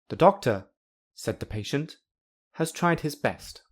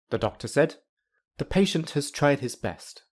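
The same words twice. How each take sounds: First: It is spoken as three phrases. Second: It is spoken as two phrases. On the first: The patient is reporting what the doctor did. "there are three in the second meaning" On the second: The doctor is reporting what the patient did. "In the first meaning, there are two spoken parts"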